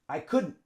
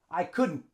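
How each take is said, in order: First: It is said as one contracted word. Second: The same.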